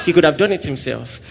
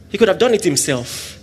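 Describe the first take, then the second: No difference in how they are said.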